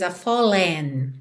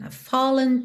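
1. A palavra "a" é tônica. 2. A palavra "a" é átona. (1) "você não diz a fallen" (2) "Ele é pronunciado, mas ele não tem nenhuma ênfase"

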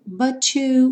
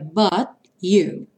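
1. O T se une ao "you" com um som parecido com "ch". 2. O T final não é pronunciado de jeito nenhum. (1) "há essa opção de fazer o som to" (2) "esses T's finais não são pronunciados"

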